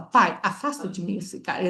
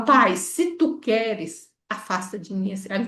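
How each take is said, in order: First: "pai, afasta de mim esse cálice" said flatly as a direct order; plain command. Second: "pai, se tu queres" drawn out slowly and gently; slow humble plea. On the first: Teacher shows the wrong version, a flat command. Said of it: "Ele não fala isso". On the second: Teacher shows the right version, a slow humble request. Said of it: "Ele fala". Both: Shown as a demonstration.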